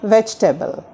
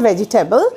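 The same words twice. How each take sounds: First: The vowel after 'veg' is short, nearly dropped. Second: The vowel after 'veg' is drawn out long. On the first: The speaker calls it right. "We have to pronounce it as ভেজিটেবল" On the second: The speaker calls it wrong. "It's not ভেজিটেবল. আমরা জয়ের পরে জি এর পরে ভেজি long করব না"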